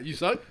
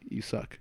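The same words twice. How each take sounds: First: It is said as a rising question. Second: It is said as a flat statement.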